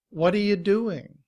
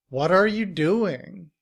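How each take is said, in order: First: The first words blend into reduced forms. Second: Each word is said fully and separately.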